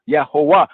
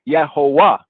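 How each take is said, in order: First: The word begins with a Y sound. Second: The word begins with a Y sound.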